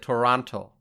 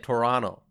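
First: The second T sound is clearly pronounced. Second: The second T sound is dropped or softened. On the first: "I say Toronto. So I put emphasis on the T" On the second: "I think there are folks who say Toronto"

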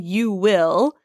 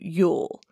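First: The two words are said in full, 'you will'. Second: The two words are contracted into 'you'll'. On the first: "instead of saying you will" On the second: "you would turn that into you'll"

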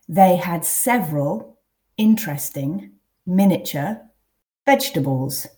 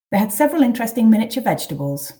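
First: The sentence is read at a slow pace. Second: The sentence is read at a natural pace. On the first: "I'll read them first quite slowly" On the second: "then read twice at a more natural pace"

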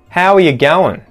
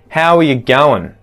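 First: Going is shortened to goin'. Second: Going is shortened to goin'.

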